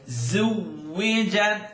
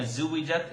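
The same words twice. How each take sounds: First: The first consonant is a clear, vibrating z. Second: The first consonant is not a clear buzzing z. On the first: The speaker calls it right. "clearest resemblance to a vibrating Z sound" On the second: The speaker calls it wrong. "Don't give me a"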